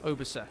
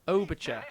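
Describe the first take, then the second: First: The last syllable is said without a ch sound. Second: The last syllable starts with a ch sound. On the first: "Surely not. That doesn't sound right" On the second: "like Che Guevara"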